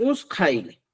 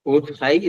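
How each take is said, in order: First: "usqay" with an s before q; variant pronunciation. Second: "Utqay" with a t before q; correct pronunciation. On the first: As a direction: say "usqay" with hissing s mid-word. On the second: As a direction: say "Utqay" with stopped t mid-word. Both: Shown as a demonstration. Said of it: "Utqay es la correcta".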